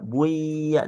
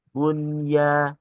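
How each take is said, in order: First: The n sound merges into the following y. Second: The n sound is pronounced clearly before y. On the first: The speaker calls it wrong. "jangan dibaca buya" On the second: The speaker calls it right. "melainkan izhar"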